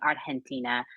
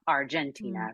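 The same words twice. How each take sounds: First: The G is soft, as in Spanish. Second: The G is hard, as in English. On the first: It is said the way people in that country say it. "how it would be pronounced in Argentina" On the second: It is said the way the song was originally written. "it was written with a hard G"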